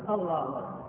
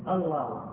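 Both takes have the same delivery.

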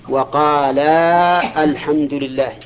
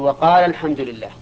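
First: The long vowel before the article is pronounced. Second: The long vowel before the article is dropped. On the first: The speaker calls it wrong. "ما نقرأ كذا؟ لا" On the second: The speaker calls it right. "نحذف الألف"

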